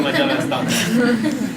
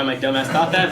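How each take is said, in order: First: Much higher, louder, dragged-out repeat; self-mocking squeal. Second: Said in the usual way. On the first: Real, not acted. Comic laughing at his own foolish hope, self-mocking squeal. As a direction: draw it out in a high, incredulous whine.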